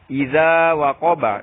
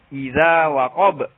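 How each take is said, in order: First: The word ends with a vowel sound. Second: The word ends on a consonant.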